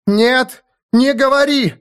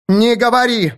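First: Very high, desperate cry; frantic plea. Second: High, sharp shout; alarmed cry. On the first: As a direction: implore him not to speak. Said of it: "взмолилась Аланис". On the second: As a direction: cry out to stop him. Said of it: "вскричала Аланис". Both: A narrator's reading.

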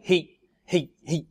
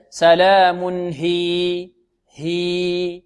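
First: هي clipped to a short hi; wrong short stop. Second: سلام هي slowly, ending on long hī; long-vowel stop. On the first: Teacher showing students the error, too-short هي. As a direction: cut the vowel of هي short. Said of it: "خطأ". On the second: Teacher correcting students, lengthened هي at the stop. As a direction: hold the vowel of هي two beats. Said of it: "بل". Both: Shown as a demonstration.

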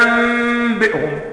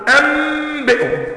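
First: "أنبئهم" with the lips closing lightly and a held ghunna on the meem; correct ikhfa. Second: "أنبئهم" with the lips pressed hard together on the meem, high and slow; mock the wrong way of saying "أنبئهم", lips squeezed tight; lips clamped shut. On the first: Teacher shows the correct hidden meem in "أنبئهم". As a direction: say "أنبئهم" the proper tajweed way, slow. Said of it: "أنت بتقول إيه". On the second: Teacher shows the wrong way, lips pressed on "أنبئهم". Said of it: "ما بتقفلش الشفتين وتقول". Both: Shown as a demonstration.

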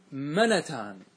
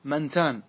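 First: منتان said menatan, a short a after the nun; منتان with an open fatha on the nun; منتان as menatan, the rare variant. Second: منتان said mantan, nun without a vowel; منتان with a silent nun before the ت; منتان as mantan, standard form; nun kept still. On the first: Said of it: "أنهم فتحوا النون". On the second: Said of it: "سكون النون". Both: Shown as a demonstration.

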